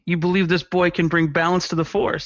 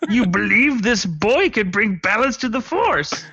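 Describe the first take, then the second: First: It is said in the speaker's own voice. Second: It is said in a put-on Yoda voice.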